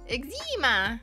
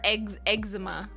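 First: The start does not sound like 'eggs'. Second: The start sounds like the word 'eggs'.

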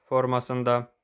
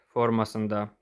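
The two takes are said the same way.

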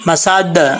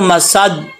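First: The final d has an echoing bounce. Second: The final d is plain, without an echoing bounce. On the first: The speaker calls it right. "दाल में कलकला है" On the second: The speaker calls it wrong. "अब इसको मसद ऐसे नहीं पढ़ेंगे"

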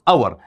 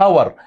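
First: The word begins with a vowel sound. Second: The word begins with an h sound. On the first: The speaker calls it right. "شو هاي تلفظ؟" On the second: The speaker calls it wrong. "ما تلفظهاش هور"

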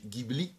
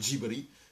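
First: Said the Italian way, with a hard G. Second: Said the Japanese way, with a soft j-sound. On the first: "in Italia con l'H magari viene pronunciato G- Ghibli" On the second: "qua si pronuncia ... perché lo pronuncia la giapponese"

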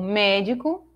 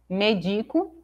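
First: The stress is on the first syllable. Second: The stress is on the second syllable. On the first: The speaker calls it right. "Assim como médico" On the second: The speaker calls it wrong. "eu leria medico, se estivesse sem acento"

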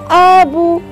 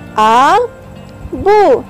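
First: The two syllables are blended into one word. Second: The two syllables are said separately. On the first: "Bila rapat jadi apa?" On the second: "a pergi dekat bu"

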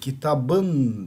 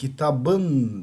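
First: The consonant before the suffix is a soft b. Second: The consonant before the suffix is a soft b.

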